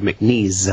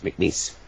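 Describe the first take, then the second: First: The name ends with a buzzing z sound. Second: The name ends with a hissing s sound. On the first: The speaker calls it wrong. "sometimes people go McNeese. I said no" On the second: The speaker calls it right. "it's like lease grease piece"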